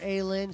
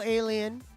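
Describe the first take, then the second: First: The name sounds like 'Aylin', two syllables. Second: The name sounds like the word 'alien'. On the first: The speaker calls it right. "I don't mean to mispronounce your name" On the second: The speaker calls it wrong. "I said alien like an idiot"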